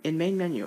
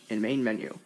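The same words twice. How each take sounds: First: It is said at a normal pitch. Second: It is said at a lowered pitch. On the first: "instead of saying in main menu" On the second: "it'll go like, ... so the pitch goes down"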